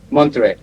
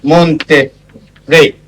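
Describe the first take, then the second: First: Said in the usual way. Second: Monterrey stretched out slowly in Spanish; Monterrey said very slowly, Spanish style; Spanish pronunciation. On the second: Shown as a demonstration. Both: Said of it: "in Spanish, it becomes".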